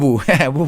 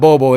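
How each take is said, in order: First: The name is said with an 'oo' vowel. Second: The name is said with an 'oh' vowel. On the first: The speaker calls it right. "It's Boo Boo" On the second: The speaker calls it wrong. "it's not Bobo"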